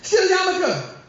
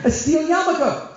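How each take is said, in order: First: "Steel yarmulke" hit high and falling; punchline repeat. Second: Steel yarmulke drawn out, higher; teaching the term; explaining slowly. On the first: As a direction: repeat "Steel yarmulke" for the laugh, much higher. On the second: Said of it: "barzel is steel". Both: Shown as a demonstration.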